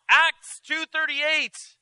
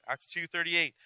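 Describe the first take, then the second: First: Shouted scripture. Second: Said in the usual way. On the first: Acted. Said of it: "she yelled". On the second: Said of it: "repeats reference plainly".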